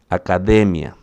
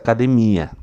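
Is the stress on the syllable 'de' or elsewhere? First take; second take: de; elsewhere. First: The stress is on the syllable 'de'. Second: The stress is on a different syllable. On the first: The speaker calls it right. "A sílaba forte aqui é de" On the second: The speaker calls it wrong. "não é essa academia"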